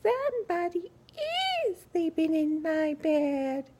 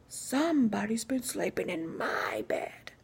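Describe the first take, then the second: First: It is said in a small, squeaky voice. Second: It is said in a big, deep, growly voice.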